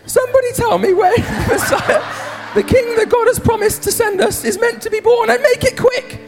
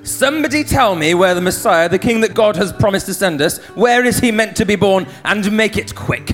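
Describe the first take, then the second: First: It is said in a high-pitched voice. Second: It is said in a normal-pitched voice.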